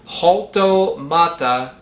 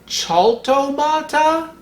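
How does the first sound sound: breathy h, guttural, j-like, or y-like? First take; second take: breathy h; guttural. First: It begins with a light breathy h sound. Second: It begins with a rough guttural throat sound. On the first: "pronounce the J as in the J in Mexican Spanish" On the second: "more guttural like the German C H"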